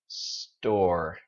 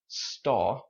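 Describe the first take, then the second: First: It ends with a strong, tight R sound. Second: It ends in a light vowel with no R. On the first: "But Americans" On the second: "if you are learning British English... just say staw"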